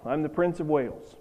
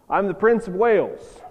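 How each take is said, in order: First: Said in the usual way. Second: Put-on higher, firmer boy's claim; proudly insisting on the title; insistent. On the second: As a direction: insist on it, pitched up and emphatic. Boy insists when asked for truth.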